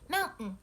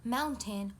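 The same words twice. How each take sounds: First: The middle sound is a glottal stop. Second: The middle sound is a clear T. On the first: The speaker calls it right. "we say" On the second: The speaker calls it wrong. "We don't say"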